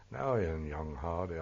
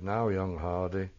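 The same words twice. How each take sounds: First: Lightly imitating a comical old Buckinghamshire accent; just a hint of a light old Buxy voice; faint Buxy accent. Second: Said in the usual way. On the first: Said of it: "I can't imitate it". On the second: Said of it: "spoke in an old sort of rather light sort of proper Buxy accent".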